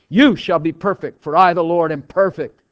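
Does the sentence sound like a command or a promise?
command. It is read as a stern command. The listener must achieve it by their own effort. "Now that puts the weight on you, all the burdens on you"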